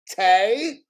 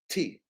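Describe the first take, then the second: First: The letter is said with a 'tay' vowel. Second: The letter is said with a 'tee' vowel. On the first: The speaker calls it wrong. "It's not Tay" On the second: The speaker calls it right. "It's tea. Like, you drink tea"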